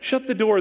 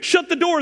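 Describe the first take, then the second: First: It is said in a calm, casual way. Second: It is said in an urgent, forceful way. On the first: It is a mild everyday request. "there's a draft getting in" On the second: It is an urgent command that must be obeyed. "there's a monster getting in"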